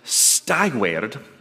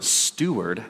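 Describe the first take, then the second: First: It is said as two parts, sty plus ward. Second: It is said as the usual one-word form. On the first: This is the word's older form. "So stiward" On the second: This is how it is said today. "as we pronounce it in our modern English"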